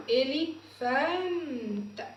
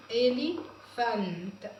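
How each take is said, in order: First: Drawn-out teaching pronunciation of إليفانت; slow sounding out. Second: إليفانت said slowly with a rising end; slow repeat. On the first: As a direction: stretch إليفانت slowly, syllable by syllable. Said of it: "teacher sounds out word slowly". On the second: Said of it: "teacher repeats word". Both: Shown as a demonstration.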